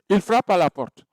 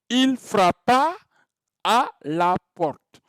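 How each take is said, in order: First: The verb's final vowel is swallowed into the next. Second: The verb ends in a clear, distinct a sound. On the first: It sounds like the action is happening now. The speaker calls it wrong. "Si je prononce mal ce mot" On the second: The action happened in the past. The speaker calls it right. "c'est du passé simple"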